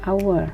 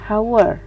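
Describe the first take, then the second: First: The h is silent; it starts with a vowel. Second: The word starts with an audible h sound. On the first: The speaker calls it right. "diucapkannya hour ... Itu bersuara vokal" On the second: The speaker calls it wrong. "bukan hour"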